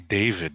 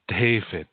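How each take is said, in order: First: The name starts with an English 'd' sound. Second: The name starts with a hard, 't'-like sound. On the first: "they wouldn't say David" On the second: "They would say David. It would come out different"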